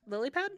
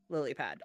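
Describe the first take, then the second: First: Questioning. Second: Flat statement. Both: Shown as a demonstration.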